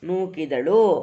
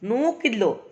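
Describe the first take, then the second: First: Every syllable is pronounced fully, nothing dropped. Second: A middle vowel is dropped, shortening the word. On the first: This is the formal written form. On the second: This is the everyday spoken form.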